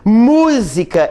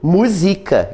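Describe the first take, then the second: First: The stress is on the first syllable. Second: The stress is on the second syllable. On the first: It is the noun meaning music. "Música existe sem acento?" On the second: It is the verb meaning sets to music. "Ele musica os poemas"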